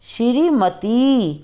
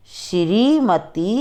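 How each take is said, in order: First: श्रीमती slow with a clear श्र; correct pronunciation. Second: श्रीमती slow with s for श्र, like सिरीमती; wrong form. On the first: Teacher gives students the correct form, careful cluster. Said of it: "फिर हम शुद्ध उच्चारण करके बताएंगे". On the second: Teacher shows students the sloppy version, s sound. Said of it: "पहले हम आपको अशुद्ध वर्ण बताएंगे". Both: Shown as a demonstration.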